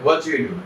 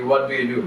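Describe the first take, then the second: First: Teacher demonstrating native pronunciation; native English accent. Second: Said in the usual way. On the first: Shown as a demonstration. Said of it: "এটা এভাবে শোনাবে". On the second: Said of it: "আমরা বাঙালিরা ইংলিশে এটা প্রশ্ন করি".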